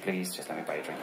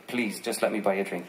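First: Plea sinking lower and softer into a laugh; the apologetic man's plea trailing off through a chuckle; fading laughing plea. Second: Apologetic pleading. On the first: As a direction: let the repeat dissolve into laughter, much quieter. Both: Retold or imitated. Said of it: "And he said".

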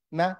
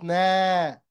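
First: "na" with a short vowel; quick "na", just the fatha. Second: "na" with the vowel stretched out long; drawn-out "naaa"; long na, wrong way. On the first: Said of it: "not long". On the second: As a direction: hold the vowel of "na" as the mistake to avoid. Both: Shown as a demonstration.

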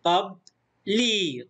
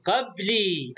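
First: Slow قبلي as "qab ... lii"; split into syllables. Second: Said in the usual way. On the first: Shown as a demonstration. Teacher sounds out the word for pupils, slowly split. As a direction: pause in قبلي after "qab", then long "ii". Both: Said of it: "مقطع ساكن وهنا مد بالياء".

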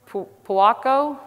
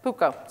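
First: "Puako" higher and drawn out, asking if it's right; unsure pronunciation attempt. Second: "Puko" repeated back in two syllables; corrected pronunciation attempt. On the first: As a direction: stumble into "Puako" as a slow, rising question. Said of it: "how do you pronounce this?". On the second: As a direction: say "Puko" briefly, as a statement. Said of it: "What is it?". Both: Real, not acted.

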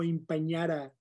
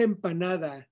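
First: "empañara" garbled as em-pan-YAH-duh; anglicized pronunciation. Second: Said in the usual way. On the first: Shown as a demonstration. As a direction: say "empañara" American-style, with a false ñ. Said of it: "no empañara". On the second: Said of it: "Se dice empanada".

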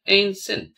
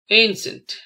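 First: "ancient" split as an, cient; slight break between syllables in "ancient". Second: Said in the usual way. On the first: Shown as a demonstration. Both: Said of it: "spell the word".

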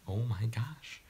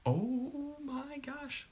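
First: Breathless excited whisper. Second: Long high squeal, drawn out slowly; excited squeal. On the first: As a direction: whisper it in disbelief. Excited whisper as stream goes live. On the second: Squealing as stream goes live. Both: Real, not acted.

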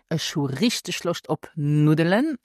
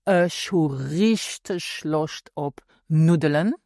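First: Said in the usual way. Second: Richtig leaned on, the whole phrase said slowly; slow emphatic demo. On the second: Shown as a demonstration. Teacher shows learners how to add emphasis, slow and weighted. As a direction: draw out "Ich hu richtig Lust ob Nudeln" to stress richtig. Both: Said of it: "so now let's add some emphasis".

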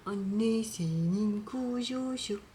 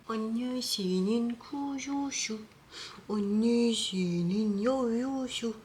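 First: Drawn-out tender coo. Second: Slow high sing-song coo. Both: Real, not acted. Cooing to the cat.

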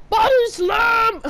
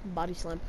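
First: High, loud and slow, drawn out; hype shout. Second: Said in the usual way. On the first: Real, not acted. Gamer yelling the move as he hits it, slow hype shout. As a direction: bellow it like a wrestling announcer. Shouts it after quiet take.

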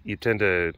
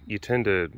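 Both takes have the same delivery.

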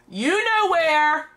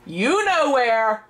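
First: "know" stretched high and slow; stress on know. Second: "you" punched, the rest slow; stress on you. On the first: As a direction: lean hard on "know", drawn out. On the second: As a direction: hit "you", then drag out "know where". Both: Real, not acted. Calling son, repeated answer.

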